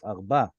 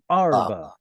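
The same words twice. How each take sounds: First: The stress is on the last syllable. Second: The stress is on the first syllable. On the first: This is the standard form. The speaker calls it right. "Put the stress on the end" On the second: This is the common everyday form. The speaker calls it wrong. "A lot of Israelis will say arba. Sorry, it's incorrect"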